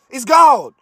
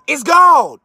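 First: Said in the usual way. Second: Shouted. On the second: Real, not acted. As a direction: yell "It's gold." with full force. Repeats line, second time shouted.

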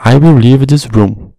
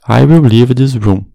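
First: Determined, raised voice. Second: Said in the usual way. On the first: Shown as a demonstration. Teacher demonstrating an emphatic will, firm and raised. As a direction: say it like you mean to walk out. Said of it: "a gente se expressa de uma forma mais enérgica e determinada". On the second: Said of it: "Eu irei sair dessa sala".

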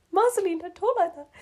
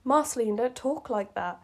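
First: Much higher, melodramatic plea; hammed-up pleading. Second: Said in the usual way. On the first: Marshall pleads with Marceline, in mock melodrama. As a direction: plead like a soap hero, half laughing.

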